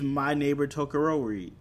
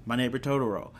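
First: Totoro garbled as "toh-kuh-ROH-ree"; mispronounced title. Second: Said in the usual way. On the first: Real, not acted. Vlogger naming the first film watched, Totoro said as "Tokorori". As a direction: stumble on Totoro, swapping in a k sound. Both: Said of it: "didn't pronounce that right".

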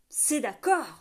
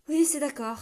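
First: Cried out. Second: Giving in. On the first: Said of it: "s'écria l'autre homme". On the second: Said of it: "céda-t-il". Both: A narrator's reading.

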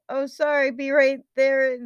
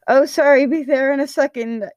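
First: Higher voice without extra volume; apologetic call back. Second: Louder, higher hurried call; yelled back. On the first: Patton answers the coach, a light high call back. First, unshouted take of yelled reply. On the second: Patton answers the coach, yelling back. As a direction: shout an apology back across the field. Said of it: "he yelled back". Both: A narrator's reading.

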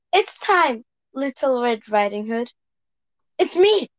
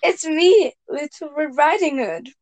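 First: Red Riding Hood voice. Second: Put-on higher, sweet little girl voice; a light girl's voice at the door; Red Riding Hood voice. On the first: Acted. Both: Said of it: "you can read that again".

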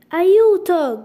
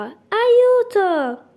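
First: Loud, high call for help; crying for help. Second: Higher and louder, a second desperate shout; desperate cry for help. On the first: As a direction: shout it out like she is drowning. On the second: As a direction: scream it even harder, going under. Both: A narrator's reading. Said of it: "gridò".

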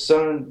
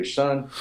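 First: Said in the usual way. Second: A light Southern drawl on Son; lightly imitating a Southern pastor; Southern accent. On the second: Old Southern pastor addressing the speaker, light Southern accent. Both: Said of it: "so he has a Southern accent".

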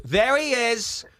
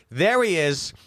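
First: High, drawn-out call on a falling tune; mock calling out. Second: High call, less drawn out; mock calling out. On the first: Woman comes up and points him out, mock calling out. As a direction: imitate someone spotting a culprit, high and stretched. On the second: Woman repeats her find at the bar, mock calling out. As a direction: imitate the spotting call in a shorter form.

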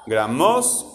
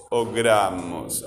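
First: "Gramos" with the stress moved to MOS; slow questioning "Gramos", last syllable stressed; wrong final stress. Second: "gramos" with long GRA, falling MOS; low GRAAmos, stressed at the front. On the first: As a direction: rise sharply on the end, graMÓS for "Gramos". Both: Shown as a demonstration. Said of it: "¿cómo digo yo?".

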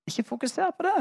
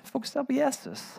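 First: Det lifted high with a long rise; stress on det. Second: Jesus pitched high then falling; Jesus as the answer, stressed and falling. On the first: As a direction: push the word det up and hold it. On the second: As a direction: land the weight on Jesus. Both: Shown as a demonstration.

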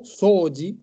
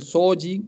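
First: "soji" with the first O held long; lengthened first vowel in "soji". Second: Said in the usual way. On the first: Shown as a demonstration. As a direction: stretch the O in "soji". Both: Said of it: "un palito arriba de la O".

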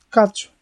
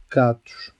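First: Higher, louder exclamation; exclaimed. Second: Said in the usual way. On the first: Real, not acted. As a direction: blurt it out in alarm. Dramatic reveal of the cacti. (exclamação alta e aguda)

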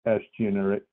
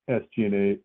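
Both takes have the same delivery.

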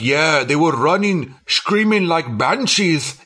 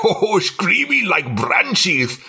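First: Put-on slow, drawn-out Asian American accent; exaggerated Asian accent. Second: Slow, higher Asian American accent, hammed up; exaggerated Asian accent. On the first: Friend mocks the old janitor's Asian American accent, slowly. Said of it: "most Asian American accent I've ever heard". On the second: Retelling the janitor's line, exaggerated Asian American accent. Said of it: "It was so fucking exaggerated".

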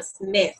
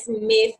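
First: "Smith" starting on a clean s and ending on th; correct Smith. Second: "Smith" with an e sound before the s and an f at the end, like esmif; wrong Smith. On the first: Teacher shows learners the correct Smith, clean s. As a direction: say "Smith" with no vowel before the s. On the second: Teacher shows learners the wrong Smith, esmif. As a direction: say "Smith" the Spanish-speaker way, esmif. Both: Shown as a demonstration. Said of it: "Aprender a pronunciar la S al principio".

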